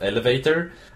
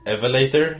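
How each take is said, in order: First: The l and v sounds are in usual order. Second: The l and v sounds are swapped. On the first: "instead of" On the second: "swapped out the letters in words"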